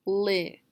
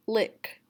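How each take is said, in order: First: LICK cut to "Li", short i without k; final sound dropped. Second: Said in the usual way. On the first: Shown as a demonstration. Teacher showing what's left of lick, final sound dropped. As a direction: say "Li", leaving the k off. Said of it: "Don't say k". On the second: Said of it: "deleting the final sound".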